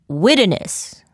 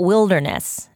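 First: "Wilderness" with the L swallowed, like "widderness". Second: Said in the usual way. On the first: Shown as a demonstration. Author showing the word she trips on, "Wilderness" with a swallowed L. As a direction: drop the L out of "Wilderness". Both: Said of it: "I like to swallow the L".

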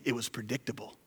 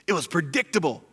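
First: Said in the usual way. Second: "It was predictable" said louder and more pointed; stressed repeat. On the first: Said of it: "repeated louder". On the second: Shown as a demonstration. Pastor repeating for emphasis, louder. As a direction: hammer "predictable" home the second time.

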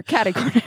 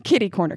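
First: "Catty" said with a flat a like cat; Kentucky "Catty corner". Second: "Kitty" said with a short i; northern "Kitty corner". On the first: Contrasting the two dialect words, "Catty" like cat. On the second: Contrasting the two dialect words, "Kitty" with a short i. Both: Shown as a demonstration. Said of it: "You mean catty corner?".

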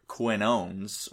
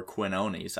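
First: Quinones ending like "owns"; Quinones as two syllables. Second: Quinones ending in "nees"; three-syllable try at Quinones; Quinones with a sounded ending. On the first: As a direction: say Quinones with a silent e. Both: Shown as a demonstration. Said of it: "I don't know how you pronounce".

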